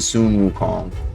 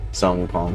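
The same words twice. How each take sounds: First: The name is pronounced in a non-anglicized way. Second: The name is pronounced in an anglicized, Western way. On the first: The speaker calls it right. "but I mean Sun Wukong" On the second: The speaker calls it wrong. "sometimes the Westerner come out at me and say Sun Wukong still"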